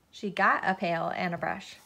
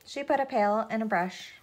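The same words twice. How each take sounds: First: "got" stressed as the corrected word. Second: Said in the usual way. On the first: A narrator's reading. Narrator fixing a misread word, stress on "got".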